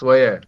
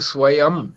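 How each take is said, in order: First: The word ends without a nasal sound. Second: The word ends with a nasal sound. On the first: The speaker calls it wrong. "स्वय नहीं है" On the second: The speaker calls it right. "या के ऊपर बिंदी लगी है ना"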